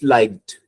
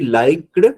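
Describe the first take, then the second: First: The word ends with a strong T sound. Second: The word ends without a strong T sound. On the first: The speaker calls it right. "It's liked" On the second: The speaker calls it wrong. "it should not be liked"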